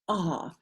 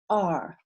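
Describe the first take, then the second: First: The r sound is dropped after the vowel. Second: The r sound is pronounced after the vowel. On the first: "In England and Australia, it actually represents the sound ah" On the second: "The sound of those two letters together go R in my accent"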